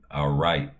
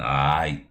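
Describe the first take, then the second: First: The R sound is clearly pronounced. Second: The R sound is dropped entirely. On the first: "they don't say all right" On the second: "You don't say the R in that motherfucker"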